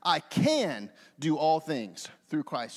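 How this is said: The word can is stressed. "this time I will circle can"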